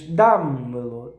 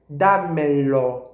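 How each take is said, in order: First: The unstressed vowels are weakened and reduced. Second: All vowels are pronounced full and strong. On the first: "Seria em português, seria pronunciado desta forma" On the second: "são todas tónicas. Dámelo. É bem, bem forte"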